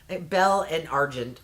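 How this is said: It is said with an American accent. "I'll just say it with an American accent there"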